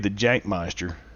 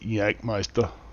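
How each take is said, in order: First: The name begins with an English J sound. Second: The name begins with a German Y sound.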